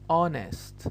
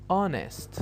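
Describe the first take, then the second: First: The word starts directly with a vowel. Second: The word starts directly with a vowel.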